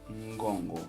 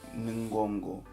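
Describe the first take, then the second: First: The n nasalizes and joins the following syllable. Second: The n is not blended into the next syllable. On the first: The speaker calls it right. "Lê-se Mbolo, Ngongo" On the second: The speaker calls it wrong. "Não. Mbolo nem Ngongo"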